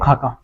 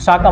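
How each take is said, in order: First: The word begins with an aspirated 'kh' sound. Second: The word begins with an 's' sound. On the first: The speaker calls it right. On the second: The speaker calls it wrong. "साका मत बोलना इसको"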